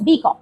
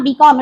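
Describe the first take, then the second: First: बी कॉम with the weight on बी; बी कॉम, first syllable stressed. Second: बी कॉम with the weight on कॉम; बी कॉम, second syllable stressed; wrong stress demo. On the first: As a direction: lean on बी, let कॉम drop in बी कॉम. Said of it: "it is बी कॉम". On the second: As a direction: stress कॉम rather than बी in बी कॉम. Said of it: "it is not बी कॉम". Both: Shown as a demonstration.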